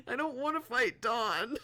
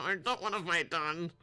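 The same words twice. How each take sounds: First: High, loud whine rising on wanna; whining. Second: Said in the usual way. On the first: Real, not acted.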